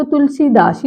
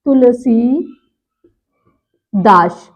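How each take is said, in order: First: तुलसीदास run together with a short si; quick तुलसीदास, short i; गलत उच्चारण. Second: तुलसीदास very slow, with a long see and a pause before das; शुद्ध उच्चारण. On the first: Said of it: "इसमें छोटी ई की मात्रा है". (तुलसीदास में "सि" छोटा) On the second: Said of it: "तो क्या हो जाएगा". (तुलसीदास धीरे, "सी" खींचकर) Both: Shown as a demonstration.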